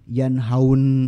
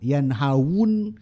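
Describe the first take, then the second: First: The vowels run together with no w glide. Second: A clear w glide comes before the last syllable. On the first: The speaker calls it wrong. "Bukan yanhau, yanhaun susah" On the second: The speaker calls it right. "berarti jadi yanhawun"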